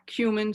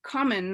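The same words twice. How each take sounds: First: The word does not sound like "come in". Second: The word sounds like "come in". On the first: The speaker calls it wrong. "not cumin" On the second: The speaker calls it right. "it's pronounced cumin like come in"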